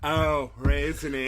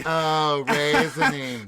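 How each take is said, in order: First: Mimicking raisiny. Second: Slow, louder drawn-out raisiny; louder mock raisiny. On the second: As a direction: echo the clip, drawn out. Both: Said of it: "after the clip".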